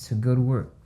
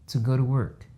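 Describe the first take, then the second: The two takes are said the same way.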